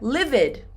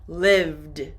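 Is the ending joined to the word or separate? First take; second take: separate; joined. First: The ending is split off as its own syllable. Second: The ending joins the word in one syllable. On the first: The speaker calls it wrong. "many students say, "Teacher, I lived." Do not separate" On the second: The speaker calls it right. "Do not separate"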